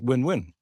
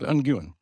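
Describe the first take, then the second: First: The name sounds just like the word win. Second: The name sounds different from the word win. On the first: "some people apparently pronounce it win-win" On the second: "it can be pronounced like Nguyen"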